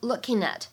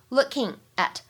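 First: The two words run together as one. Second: The two words are said separately.

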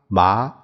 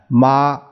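First: The syllable is said with the second tone. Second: The syllable is said with the first tone. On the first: "这一二三四声" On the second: "这一二三四声"

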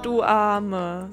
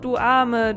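First: It is drawn out, with a falling pitch. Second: It is said plainly at a normal pace. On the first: The speaker mocks the person and means the opposite. "ein bisschen irgendwie gedehnter vielleicht, also so, Bisschen längerauf dem Vokal ausharren" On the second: The speaker genuinely pities the person. "dann wärees einfach so"

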